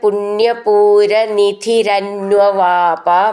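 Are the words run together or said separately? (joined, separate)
joined. The words are run together without any break.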